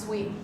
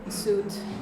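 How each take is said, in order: First: It sounds like the word sweet. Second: It sounds like the word suit. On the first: The speaker calls it right. "It's sweet" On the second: The speaker calls it wrong. "it's not suit"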